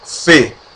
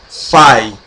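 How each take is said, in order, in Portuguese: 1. A vogal é um som de e simples. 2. A vogal é pronunciada como ditongo ai. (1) "se pronuncia F" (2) "e nem fai"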